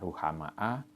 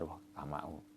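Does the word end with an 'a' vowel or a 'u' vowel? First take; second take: a; u. First: The word ends with an 'a' vowel. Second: The word ends with a 'u' vowel. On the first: "bin nasbi"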